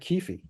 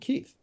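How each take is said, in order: First: The name ends with an f sound. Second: The name ends with a th sound.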